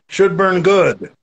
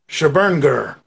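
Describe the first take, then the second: First: The words are said clearly as separate words. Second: The words are slurred together into one word.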